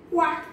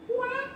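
First: Louder quack; a loud, firm duck quack; mother duck quack. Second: High quack, much higher; mother duck quack. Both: Acted. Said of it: "says the mother duck".

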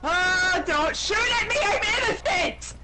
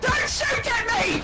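First: High frantic plea; panicked yelling. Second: Slow, high pleading yell; drawn-out panicked shout. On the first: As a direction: beg them not to shoot. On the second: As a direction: stretch the plea out. Repeats plea in shootout. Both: Real, not acted.

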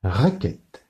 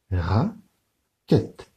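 First: Said in the usual way. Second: Raquette, slow, ra and quette apart; split into syllables. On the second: Shown as a demonstration. Teacher to pupils, Raquette broken into syllables. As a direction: beat out Raquette in two. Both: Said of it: "Je lève deux doigts pour raquette".

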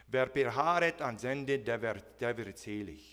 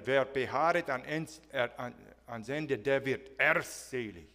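First: Scripture quoted in German; German quote. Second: Mocking German emphasis. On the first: Shown as a demonstration. Pastor quoting the German verse to the church, plainly. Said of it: "first quote it in German". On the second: Pastor imitating how German preachers pressed the verse, heavy. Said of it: "it was taken to this level".

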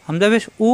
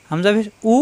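No difference in how they are said.

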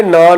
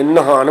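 First: "ਨਾਨ" with a plain n and long aa. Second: "ਨਹਾਨ" with an audible h after the n; h under n. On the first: Teacher cites the wrong word for bathing, h left out. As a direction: say "ਨਾਨ" like the bread, without any h. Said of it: "ਉਸ ਲਈ ਨਾਨ ਨਹੀਂ ਬੋਲਦੇ". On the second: Teacher gives the right word for bathing, h sounded after n. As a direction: breathe an h into "ਨਹਾਨ". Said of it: "ਨੰਨੇ ਦੇ ਹੇਠ". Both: Shown as a demonstration.

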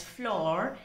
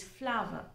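First: "floor" as one syllable with a long aw, rhyming with door; wrong pronunciation. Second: "flower" in two syllables, FLAH-vuh with a soft w; correct pronunciation. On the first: Teacher warning students how not to say it, mispronounced example. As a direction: say "floor" with no w glide in the middle. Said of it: "should not be pronounced as floor". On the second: Teacher correcting how flour is said, correct pronunciation. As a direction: say "flower" to rhyme with power, light final syllable. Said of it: "should not be pronounced as floor. It is flower".

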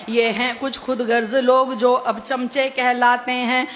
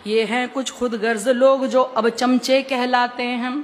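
The two takes are said the same way.

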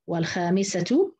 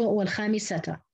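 First: Slow والخامسة as "wal-khaamisatu", ending in -tu; raf' on the ta. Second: والخامسة as "wal-khaamisata", ending in -ta; nasb on the ta. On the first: Teacher showing the other readers' version, damma on ta. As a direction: close والخامسة on a rounded "tu". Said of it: "قرأ الكسائي بالرفع". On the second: Teacher showing Hafs's reading, fatha on ta. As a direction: end والخامسة on an open "ta". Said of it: "انفرد حفص بنصب التاء". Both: Shown as a demonstration.

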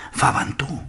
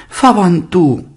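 First: Hushed high whisper; furtive little reply; whispered answer. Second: High, loud, eager exclamation; emphatic raised-voice prompt; lively quick reply. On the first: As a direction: whisper the name back secretly. Daughter answers father's whispered question. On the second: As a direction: jump in with the name brightly. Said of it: "respondió vivamente Jondrette". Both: A narrator's reading.

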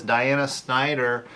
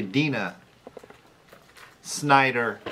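First: DIANA said as three syllables, dye-AN-uh; mispronounced name. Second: DINA said as two syllables, DEE-nuh; corrected name. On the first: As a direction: misread the name as Diana, with a long eye sound. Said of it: "It's actually Dina". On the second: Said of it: "let me rephrase". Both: Real, not acted.

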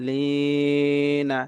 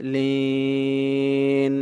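First: লিনা with a long "ee", then short "na"; voweled ending. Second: লিন held long and closed on n; pausal ending. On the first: Teacher spelling out the word for learners, লিনা slow with its final vowel. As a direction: draw out লিনা, releasing into an open "na". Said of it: "নুন জবর না". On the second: Teacher showing how to stop here, লিন drawn out to a closed n. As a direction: stretch লিন three beats and stop on the n. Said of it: "এখানে ওয়াকফ করলে হবে". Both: Shown as a demonstration.

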